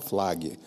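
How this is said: The word is said with Portuguese-style pronunciation. The speaker was not good at English. The speaker calls it wrong. "ele chamava Flag, é, porque ele não era bom de inglês também"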